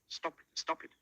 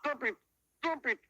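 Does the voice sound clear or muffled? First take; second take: clear; muffled. First: It sounds clear and normally spoken. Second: It sounds muffled, as if the nose is blocked.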